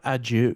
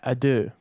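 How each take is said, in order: First: The word ends with a 'jew' sound. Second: The word ends with a plain 'doo' sound. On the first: The speaker calls it wrong. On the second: The speaker calls it right. "Yeah, ado"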